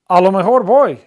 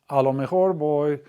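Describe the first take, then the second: First: It is said in a plain, neutral tone. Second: It is said in a reluctant, dragging tone. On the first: The speaker will probably go. "I'll probably go" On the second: The speaker might as well go, though unwilling. "like you're dragging your feet"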